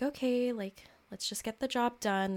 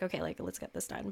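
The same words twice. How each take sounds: First: Said in the usual way. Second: Lower, softer, fast businesslike "Okay, like, let's get this done"; stern adult. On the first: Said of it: "there's this part of me that was like". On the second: Retold or imitated. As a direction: clip it down like a no-nonsense boss. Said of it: "That Capricornian sternness".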